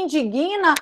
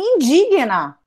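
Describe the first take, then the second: First: An extra vowel follows the g, taking stress. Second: The g is silent and the stress is on dig. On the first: The speaker calls it wrong. "é como se fosse G U I" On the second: The speaker calls it right. "Você carrega o di, o G é mudo"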